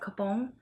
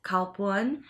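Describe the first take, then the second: First: The word sounds like 'capon'. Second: The word sounds like 'kalpun'. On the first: This is how Hmong speakers say it. "I'm Hmong American and we pronounce it as capon" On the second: This is how Thai speakers say it. "Thai people, they actually pronounce this like"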